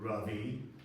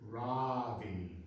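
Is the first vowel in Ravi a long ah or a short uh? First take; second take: short uh; long ah. First: The first vowel is a short uh sound. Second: The first vowel is a long ah sound. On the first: The speaker calls it right. "pronouncing it correctly with an uh" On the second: The speaker calls it wrong. "with an extra long ah"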